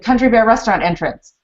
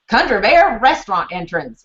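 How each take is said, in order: First: The phrase is said in a plain accent. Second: The phrase is said with a country twang.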